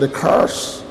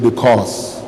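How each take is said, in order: First: It is said in an American accent. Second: It is said in a Nigerian accent.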